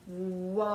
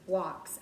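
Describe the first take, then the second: First: WALKS stretched, long vowel and separated ending sounds; slow sounding out. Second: Said in the usual way. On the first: Shown as a demonstration. Teacher sounding out a word for kindergarteners, slowly stretching WALKS. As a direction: say WALKS in slow motion, holding each sound. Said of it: "I'm gonna say it slowly so that I can hear the sounds". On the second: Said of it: "I'm gonna say it slowly".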